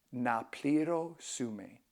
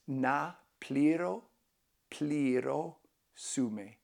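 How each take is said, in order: First: "Na pliro sume" said whole at slow teaching pace; slow full phrase. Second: "Na pliro, pliro sume" broken up and drawn out; slow syllable by syllable. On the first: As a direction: model "Na pliro sume" slowly in one go. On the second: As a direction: teach "pliro" slowly, then the whole phrase. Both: Shown as a demonstration. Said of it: "you can say".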